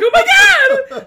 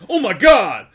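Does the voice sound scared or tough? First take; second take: scared; tough. First: It sounds frightened and shrieky. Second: It sounds deep and manly.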